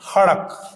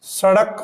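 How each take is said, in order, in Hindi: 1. शब्द की शुरुआत h ध्वनि से होती है। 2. शब्द की शुरुआत s ध्वनि से होती है। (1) "उसको कहेंगे हड़क" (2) "स का उच्चारण ह रूप में"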